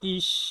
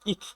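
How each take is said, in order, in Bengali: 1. শব্দটি সাধারণ s ধ্বনিতে শেষ হয়। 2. শব্দটি কঠিন kh ধ্বনিতে শেষ হয়। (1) "এটা ডয়েচে হচ্ছে ইস" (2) "অনেকে আবার ইখ বলে"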